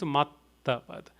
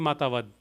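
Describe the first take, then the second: First: The t sound is held with a pause. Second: The t sound is short with no pause. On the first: "There's two T's" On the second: "Had it been just one T, it would be Matavad"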